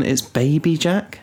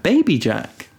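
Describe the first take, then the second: First: Said in the usual way. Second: Put-on higher, cutesy toddler voice; imitating toddler. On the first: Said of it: "for some reason". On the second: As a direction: say it like a proud little kid. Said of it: "She's like".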